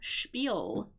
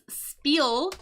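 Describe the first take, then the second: First: The word begins with an sh sound. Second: The word begins with a plain s sound. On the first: The speaker calls it right. "it is actually an S H sound" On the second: The speaker calls it wrong. "Spelling looks like it says spiel"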